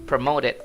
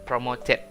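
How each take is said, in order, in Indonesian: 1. Huruf t di tengah terdengar seperti d yang lembut. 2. Huruf t di tengah adalah bunyi t yang jelas. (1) "di American English itu bacanya kayak D" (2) "bukan promoted"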